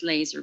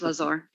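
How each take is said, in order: First: The name sounds like the word laser. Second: The name is said as Lazar. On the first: This is how other people say the name. The speaker calls it wrong. "They call us Laser" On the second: This is how the family says the name. The speaker calls it right. "but it's Lazar"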